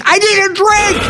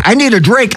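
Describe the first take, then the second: First: High, hammed-up plea; mock desperate wail. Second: Said in the usual way. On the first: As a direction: whine it like a drunk begging for a drink.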